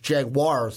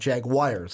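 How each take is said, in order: First: The ending sounds like 'wars'. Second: The ending sounds like 'wires'. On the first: The speaker calls it right. "it's Jaguars" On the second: The speaker calls it wrong. "not Jaguars, like my accent likes to"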